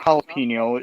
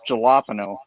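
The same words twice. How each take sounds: First: The word begins with an H sound. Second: The word begins with a J sound. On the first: "it's not jalapeno" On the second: "it's a J"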